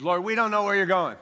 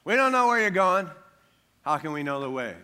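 First: Thomas blurting it out, quick and loud; mock doubting Thomas. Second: Whiny doubting Thomas. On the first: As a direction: spout it out like an anxious doubter. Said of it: "I don't know if you said it like that". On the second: Retold or imitated. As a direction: whine it like a worried disciple. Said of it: "preach a little imagination here".

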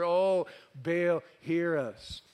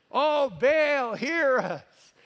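First: Said in the usual way. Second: High, loud imitated plea; yelling louder. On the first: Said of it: "they chanted". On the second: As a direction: cry out to a god who can't hear. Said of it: "You gotta yell a little louder".

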